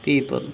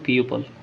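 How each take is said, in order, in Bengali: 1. প্রথম অক্ষরটি 'pee' এর মতো শোনায়। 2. প্রথম অক্ষরটি 'pyoo' এর মতো শোনায়। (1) "পিপল ইজি" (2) "এখানে ও আছে বললে তো পিউপল হতে পারে না।"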